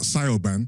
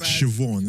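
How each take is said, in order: First: The name begins with a 'sigh' sound. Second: The name begins with a 'shiv' sound. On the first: The speaker calls it wrong. "Not not not Sayoban" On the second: The speaker calls it right. "but Siobhan"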